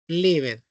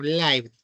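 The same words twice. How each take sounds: First: "lived" with an i sound, "livd"; first pronunciation. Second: "lived" with an eye sound, "laivd"; alternative pronunciation. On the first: Teacher offering two past readings, "lived" with a short i. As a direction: say "lived" with the vowel of give. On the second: Teacher offering two past readings, "lived" as "laivd". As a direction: say "lived" with the vowel of five. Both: Shown as a demonstration. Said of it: "lived o lived".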